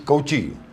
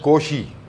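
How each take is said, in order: First: The name is said with an Indian pronunciation. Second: The name is said with a French pronunciation. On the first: The speaker calls it wrong. "if you do an Indian pronunci- pronunciation" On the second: The speaker calls it right. "but actually it should be pronounced Cauchy"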